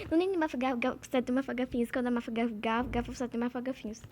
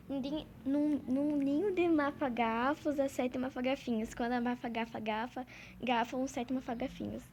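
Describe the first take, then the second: First: Tongue twister again, louder and surer; louder confident retry. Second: Tongue twister spelled out slowly and carefully. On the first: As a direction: push through it with confidence. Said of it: "Calma, gente". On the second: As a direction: say each mafagafo word slowly so you don't trip. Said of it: "eu vou falar aqui devagar". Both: Shown as a demonstration.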